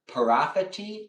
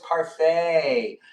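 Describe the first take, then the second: First: The word ends with a 'tee' sound. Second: The word ends with a 'fay' sound. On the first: The speaker calls it wrong. "I feel like I'm not pronouncing it right" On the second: The speaker calls it right. "Oh, it's parfait"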